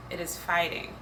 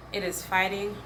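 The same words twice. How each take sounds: The two takes are said the same way.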